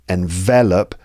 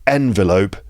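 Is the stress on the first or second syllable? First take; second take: second; first. First: The stress is on the second syllable. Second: The stress is on the first syllable. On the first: It is the verb. "stress on the second syllable" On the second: It is the noun. "the stress is on the first syllable"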